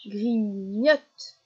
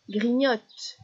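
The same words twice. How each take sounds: First: "grignote" stretched into two beats; split into syllables. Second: Said in the usual way. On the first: Shown as a demonstration. Teacher isolating the last syllable for a child, "grignote" split apart. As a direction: separate "grignote" as gri... gnote. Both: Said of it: "les dernières syllabes qui sont répétées".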